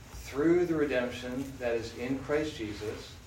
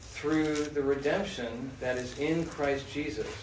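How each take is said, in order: The two takes are said the same way.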